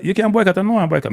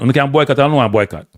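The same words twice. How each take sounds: First: Mocking singsong, pitched much higher; high, taunting parody of a caller who won't boycott; mocking echo. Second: Lightly voiced official, barely shifted from his own; a hint of a smug federation boss; voicing the JFF. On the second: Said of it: "The J F F say".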